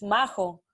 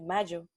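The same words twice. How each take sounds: First: The name is said with Spanish sounds. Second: The name is said with English sounds. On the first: The speaker calls it right. "in Spanish it's Majo" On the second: The speaker calls it wrong. "in English a lot of people call me Majo"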